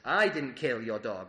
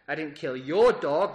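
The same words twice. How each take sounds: First: The word 'I' carries the emphasis. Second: The word 'your' carries the emphasis. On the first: Someone else did it. "That suggests that someone did" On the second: Someone else's dog was killed. "That suggests that you did kill someone else's dog"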